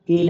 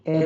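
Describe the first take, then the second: First: ए as the long ay in cake; long A sound. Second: ए as the open a in cat; short A sound. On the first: Teacher rejecting the long sound, ए as ay. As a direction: say ए closed, like the letter A. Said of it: "ए नहीं बोलेंगे". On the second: Teacher explaining cat, ए as short open a. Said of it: "ए बोलेंगे". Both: Shown as a demonstration.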